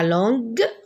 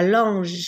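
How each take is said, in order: First: The g is a hard G sound. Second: The g is a soft J sound. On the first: The speaker calls it right. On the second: The speaker calls it wrong.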